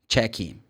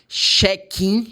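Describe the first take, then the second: First: The word begins with a ch sound. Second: The word begins with an sh sound. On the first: The speaker calls it right. "the C H in this case for this word is ch" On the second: The speaker calls it wrong. "but it's not right"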